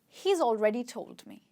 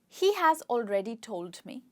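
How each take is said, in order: First: The words he and has join into one syllable. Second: The words he and has are said separately. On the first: "can actually be contracted" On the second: "the full form of the sentence"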